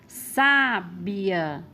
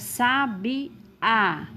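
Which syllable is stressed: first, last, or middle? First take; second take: first; last. First: The stress is on the first syllable. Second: The stress is on the last syllable. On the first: "a sílaba tônica é sa, ou seja, a antepenúltima sílaba" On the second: "a sílaba tônica é a última"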